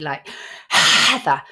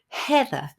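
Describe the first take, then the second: First: The h is pushed out too forcefully. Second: The h is a soft, light breath. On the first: The speaker calls it wrong. "it might just come out too forcefully" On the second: The speaker calls it right. "just let the breath out with the vowel"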